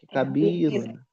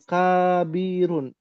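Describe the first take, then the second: First: The first vowel is kept short. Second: The first vowel is drawn out long. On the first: The speaker calls it right. "K-nya pendek" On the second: The speaker calls it wrong. "bukan kabirun"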